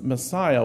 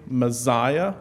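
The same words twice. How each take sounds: First: The middle consonant is a hissing S sound. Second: The middle consonant is a buzzing Z sound. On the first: The speaker calls it right. "It's pronounced Messiah with an S" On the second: The speaker calls it wrong. "I tend to naturally say Messiah with a Z"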